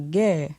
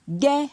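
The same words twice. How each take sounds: First: The syllable has a falling tone. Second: The syllable has a high tone. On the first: "avec un ton descendant" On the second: "Avec un ton haut"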